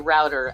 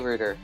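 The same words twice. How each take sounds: First: It is said the American and Australian way. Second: It is said the British way. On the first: "Australians and Americans say router" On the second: "Brits say say router"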